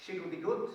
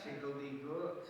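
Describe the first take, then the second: First: "shiggledy-gut" said loud, shig-ul-dee-gut; "shiggledy-gut" ar lafar Cymraeg; Welsh word. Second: "Shiggledy-gut" slow, rising at the end; "Shiggledy-gut" yn araf; Welsh word slowly. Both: Shown as a demonstration. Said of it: "We call them in Welsh".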